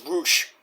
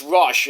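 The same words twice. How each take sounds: First: "Rush" said with a long "oo", as "Roosh"; Roosh variant. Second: Said in the usual way. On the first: Shown as a demonstration. Host explaining translations, "Rush" said as "Roosh". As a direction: turn the vowel of "Rush" into "oo". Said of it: "some translations it's Rush". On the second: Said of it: "it's Rush in Mega Man".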